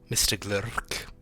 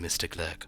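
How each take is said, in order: First: The name is said in a put-on elvish accent. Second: The name is said in a plain everyday accent. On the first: "I was saying it with a proper elvish accent for a moment" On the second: "I know it is simply mister Glurk"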